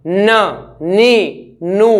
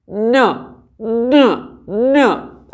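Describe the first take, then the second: First: न, नी, नू with sound flowing through the nose; full humming न नी नू through an open nose; open nasal n. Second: न said with the nose held shut, muffled; न pinched off through a closed nose; blocked-nose n. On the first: Teacher demos a correct न with the nose open. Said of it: "अगर नाक को खोलता हूँ". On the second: Teacher demos a wrong न with the nose closed. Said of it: "नाक को करूँगा अपने close". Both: Shown as a demonstration.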